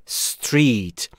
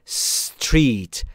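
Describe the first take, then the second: Both takes have the same delivery.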